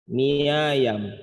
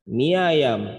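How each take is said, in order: Both takes have the same delivery.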